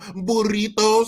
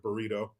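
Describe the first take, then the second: First: The word is said with a Spanish accent. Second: The word is said with an English accent. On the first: The speaker shows off the word's foreign origin. The speaker calls it wrong. "Spanish words with a Spanish accent" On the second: The word is treated as ordinary English. The speaker calls it right. "Just say it regular"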